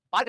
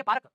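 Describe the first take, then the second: First: Said in the usual way. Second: पार्क said as e-park with a leading vowel; हमारे यहाँ वाला पार्क, e-park; local pronunciation. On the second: Shown as a demonstration. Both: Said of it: "पार्क नहीं बोलते, ये अंग्रेज बोलते हैं".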